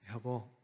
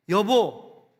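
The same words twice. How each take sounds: First: It is said softly, with sympathy. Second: It is called out sharply, with irritation.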